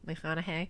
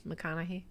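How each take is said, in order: First: McConaughey ending in "hay", soft and low; testing pronunciation. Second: McConaughey ending in "hee", very soft and low; testing pronunciation. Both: Shown as a demonstration. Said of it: "Am I saying this wrong?".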